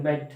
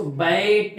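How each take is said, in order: First: Said in the usual way. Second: "बैट" with the vowel stretched long; drawn-out vowel. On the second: Shown as a demonstration. Teacher showing learners how not to read "बैट", vowel dragged out. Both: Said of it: "अब इसको बैट नहीं पढ़ते हैं".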